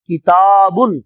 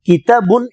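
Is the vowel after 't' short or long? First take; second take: long; short. First: The vowel after 't' is drawn out long. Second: The vowel after 't' is short. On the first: The word is read with the alif. "அந்த தா ஃபத்ஹாவுக்கு அடுத்து அலிஃப் சுக்கூன் போட வேண்டும், அப்போதான் இழுக்க முடியும்" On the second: The word is read without the alif. "கிதாபுன் என்று சொல்லாமல்"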